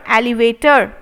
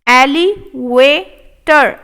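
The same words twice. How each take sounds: First: Said in the usual way. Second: Elevator stretched slow; slow model take. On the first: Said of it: "normal repeat". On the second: Shown as a demonstration. Teacher modelling elevator slowly. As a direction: say it slowly, clearly. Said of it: "slow model take".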